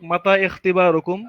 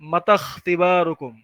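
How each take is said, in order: First: The 'i' vowel before 'kh' is pronounced. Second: The 'i' vowel is dropped, linking 'kh' to mata.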